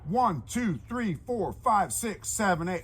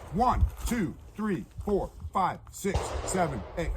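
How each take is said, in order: First: The numbers are counted at a quicker pace. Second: The numbers are counted slowly.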